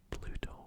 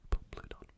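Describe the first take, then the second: First: "Pluto" whispered cleanly with no final n; corrected name. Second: "Pluton" whispered with a stumble on the P and an extra n; mispronounced name. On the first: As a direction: fix it to "Pluto", plain and clear. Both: Real, not acted.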